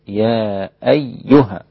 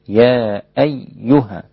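The two takes are said the same way.

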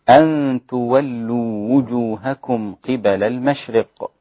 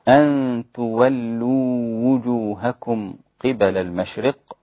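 The two takes are said the same way.

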